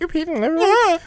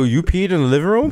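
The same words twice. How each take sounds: First: It is said in a high-pitched voice. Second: It is said in a normal voice.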